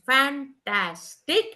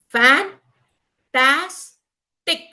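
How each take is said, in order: First: The syllables are joined smoothly without pauses. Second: Each syllable is said separately with pauses. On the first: "do I combine them as fantastic?" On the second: "what are the first syllables?"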